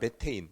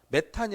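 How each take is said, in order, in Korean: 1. 마지막 음절은 'ei' 모음이에요. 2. 마지막 음절은 평범한 'a' 모음이에요. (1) "영어식 발음" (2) "독일어식 발음"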